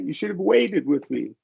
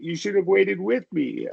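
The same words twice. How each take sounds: First: The stress falls on the word waited. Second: The stress falls on the word with. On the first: "I like personally emphasizing the verb" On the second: "You could emphasize with"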